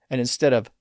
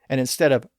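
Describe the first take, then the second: No difference in how they are said.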